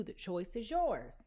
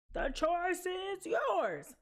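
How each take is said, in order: First: Said in the usual way. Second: High, very slow and drawn out; slow dramatic drawl. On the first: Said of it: "I know I sound like a drunk". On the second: Pretend. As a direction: stretch every word dramatically. Repeated in a drawn-out voice.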